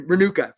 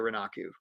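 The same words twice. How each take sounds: First: "Renuka" with OO in the middle, UH at the end; corrected name. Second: "Renaku" with AH in the middle, OO at the end; mispronounced name. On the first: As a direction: say "Renuka" as reh-NOO-kuh. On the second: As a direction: say "Renaku" as reh-NAH-koo. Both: Real, not acted. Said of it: "I mispronounced your name".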